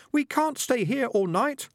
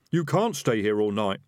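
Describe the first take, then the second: First: Much higher, slow squeaky chorus; chorus of rats. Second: Pressing, louder; urgent. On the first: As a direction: chant it like tiny rats. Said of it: "a chorus of voices from his trousers". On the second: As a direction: hurry them along. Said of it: "said the highwayman urgently". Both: A narrator's reading.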